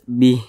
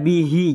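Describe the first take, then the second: First: The word ends on a silent h, no vowel. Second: The word ends with an added i vowel. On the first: The speaker calls it right. "ketika kita berwakaf tepat di huruf H" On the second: The speaker calls it wrong. "jangan dibaca bihi"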